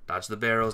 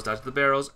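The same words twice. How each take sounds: First: Said in the usual way. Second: Alarmed shout; urgent louder warning. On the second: Real, not acted. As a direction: call it out higher and louder. Barrels coming, warning teammates.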